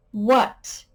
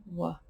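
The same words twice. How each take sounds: First: Questioning what. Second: Whispered what. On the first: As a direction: ask "What?" as a real question. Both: Shown as a demonstration. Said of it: "begins with a W H".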